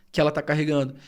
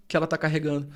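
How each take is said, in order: Both takes have the same delivery.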